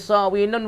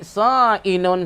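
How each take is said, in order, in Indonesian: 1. Konsonan di tengah itu bunyi w. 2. Konsonan di tengah itu hamzah. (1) "Belum pada tukar dia bunyi sawinun" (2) "dijadikan hamzah di sa'inun"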